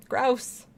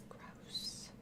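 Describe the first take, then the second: First: Said in the usual way. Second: Breathy whisper of disgust. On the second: Real, not acted. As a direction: whisper it, grossed out. Disgusted at head in bag.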